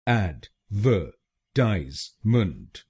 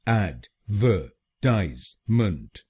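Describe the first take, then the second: Both takes have the same delivery.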